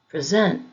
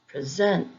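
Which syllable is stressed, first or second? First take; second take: second; second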